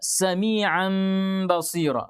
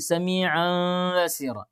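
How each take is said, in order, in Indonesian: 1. Bibir tertutup rapat pada m dan b. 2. Bibir tetap terbuka pada m dan b.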